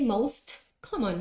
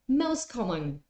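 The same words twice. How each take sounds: First: The t in 'most' is clearly pronounced. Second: The t in 'most' is dropped. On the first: The speaker calls it wrong. "You don't say most common" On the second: The speaker calls it right. "the one in the middle is the one that disappears. So listen to this"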